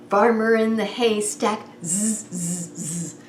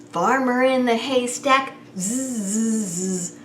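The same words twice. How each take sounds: The two takes are said the same way.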